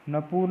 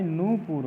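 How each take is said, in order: First: नपुर starting "na", as na-pur; teacher voicing नपुर with "na" first; wrong form. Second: नूपुर with a long "noo"; noo-pur, clearly, for नूपुर; correct form. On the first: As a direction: open नपुर with a short a. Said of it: "नहीं". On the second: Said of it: "होता है". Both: Shown as a demonstration.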